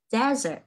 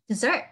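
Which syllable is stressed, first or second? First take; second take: first; second. First: The stress is on the first syllable. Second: The stress is on the second syllable. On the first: It means a dry, sandy wasteland. "Cái kia là sa mạc là desert" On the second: It means a sweet course after a meal. "trọng âm là giống như thứ hai là dessert"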